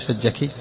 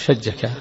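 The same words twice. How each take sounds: First: The word ends with an i vowel. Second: The word ends with an a vowel. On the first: A woman is being addressed. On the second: A man is being addressed.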